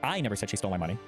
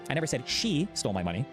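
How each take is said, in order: First: The stress is on the word 'I'. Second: The stress is on the word 'she'. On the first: Someone else said it. "with the implication meaning that someone else said it" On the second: Someone other than her took it. "I just said someone took it. I didn't say it was she"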